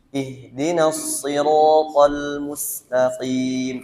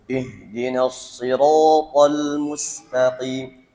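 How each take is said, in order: First: The opening vowel sounds light and thin. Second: The opening vowel sounds heavy and thick. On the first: The speaker calls it right. "Bikin senyum ya, biar lebih tipis bunyinya" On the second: The speaker calls it wrong. "membaca ih dengan tebal"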